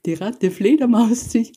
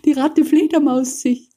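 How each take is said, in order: First: High, gleeful chant; excited bats' cry. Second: Higher still, laughing through it; laughing bats' cry. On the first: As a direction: sing it out like a playground taunt. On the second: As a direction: giggle the chant even higher. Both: A narrator's reading. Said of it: "riefen alle Fledermäuse".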